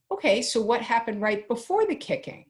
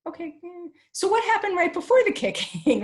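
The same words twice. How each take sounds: First: Said in the usual way. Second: Much higher, louder sing-song "what happened right before the kicking"; hammed-up patient parent coaxing the child; patient higher repeat. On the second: Shown as a demonstration. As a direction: ask it again in a bright, exaggeratedly patient parent voice.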